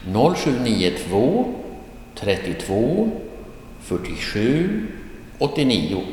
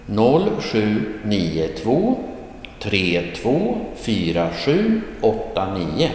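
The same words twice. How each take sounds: First: "trettiotvå", "fyrtiosju", "åttionio" as separate two-digit chunks; grouped in pairs. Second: Slow "Noll sju nio två", each digit separate. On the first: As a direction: pause between "trettiotvå" and "fyrtiosju", pitch lifting at chunk ends. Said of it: "read out the phone number like this". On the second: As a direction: read "tre två fyra sju åtta nio" as single digits. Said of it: "instead of reading out all single". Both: Shown as a demonstration.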